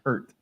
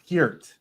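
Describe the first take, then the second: First: The vowel is like the one in 'pert'. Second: The vowel is like the one in 'peer'. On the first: The speaker calls it wrong. "not Pert" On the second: The speaker calls it right. "It is Peart"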